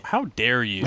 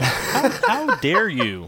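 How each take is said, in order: First: Said in the usual way. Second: Slow, higher, louder indignant how dare you; mock outrage. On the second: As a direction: drag it out in theatrical outrage. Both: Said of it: "worried that you guys will shout at me".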